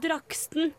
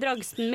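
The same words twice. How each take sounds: First: The middle consonant is a k sound. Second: The middle consonant is a g sound. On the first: "heter den Dragsten med K" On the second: "eller heter den Dragsten med G?"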